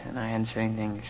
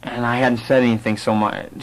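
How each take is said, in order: First: Quiet, stunned admission; much softer, hushed. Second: Said in the usual way. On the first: Retold or imitated. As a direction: drop the voice right down. Repeats how silent he was.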